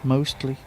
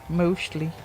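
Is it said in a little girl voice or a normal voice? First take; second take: normal voice; little girl. First: It is said in his normal voice. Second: It is said in a little girl voice from Aliens.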